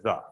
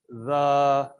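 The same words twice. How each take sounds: First: The vowel is said short and plain. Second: The vowel is held long and drawn out. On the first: "instead of the" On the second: "the colon does lengthened vowel sound"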